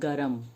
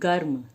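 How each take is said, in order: First: A vowel is heard between the r and m. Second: No vowel is heard between the r and m. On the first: "ये हो रहा है गरम" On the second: "पर हम बोलेंगे उच्चारण में गर्म"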